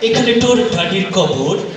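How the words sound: It is spoken with a put-on British accent. "এবার আসছে একজন ব্রিটিশ নাগরিক"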